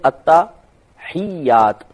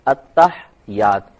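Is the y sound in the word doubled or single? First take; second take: doubled; single. First: The h has an i vowel and y is doubled. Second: The h has no vowel and y is single. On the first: The speaker calls it right. "लफ्ज है अत्तहियात। जब अत्ता कहें तो हा की आवाज आनी नहीं चाहिए, अत्ता हियात, या पे तशदीद है। अब ही और हा के नीचे जेर है" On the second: The speaker calls it wrong. "हा को साकिन कर देते हैं और ये की तशदीद खत्म कर देते हैं"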